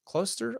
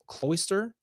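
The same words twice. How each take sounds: First: "Cloister" with a long O, as KLOH-ster; second-guessed pronunciation. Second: "cloister" with an OY vowel, rising questioningly; unsure pronunciation. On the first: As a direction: try "Cloister" as KLOH-ster, high, soft and questioning. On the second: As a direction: try "cloister" as KLOY-ster, higher and unsure. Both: Real, not acted. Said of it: "I don't know".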